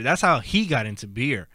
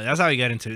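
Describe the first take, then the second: First: "he" lifted as the key word; stress on he. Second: Said in the usual way. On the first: Real, not acted. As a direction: punch the word "he". Restates with emphasis on who.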